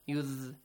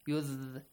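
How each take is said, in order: Both takes have the same delivery.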